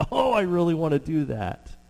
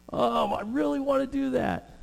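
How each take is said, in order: First: Eager wish. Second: Longing wish. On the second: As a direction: stretch it up high like a wishful kid. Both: Retold or imitated. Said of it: "you're just like".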